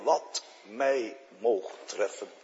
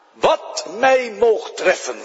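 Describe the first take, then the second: First: Sung, zacht gezongen psalmregel. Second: "mij" langgerekt en nadrukkelijk, luider; nadruk op mij. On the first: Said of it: "gaan zingen in je ziel". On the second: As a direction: vraag het de gemeente met klem op "mij". (de dominee spreekt de gemeente toe met nadruk op "mij") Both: Shown as a demonstration.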